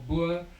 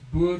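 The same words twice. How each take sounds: First: It is said with an English pronunciation. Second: It is said with an Afrikaans pronunciation.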